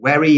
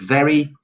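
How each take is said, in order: First: The word begins with a w sound. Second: The word begins with a v sound. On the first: The speaker calls it wrong. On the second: The speaker calls it right.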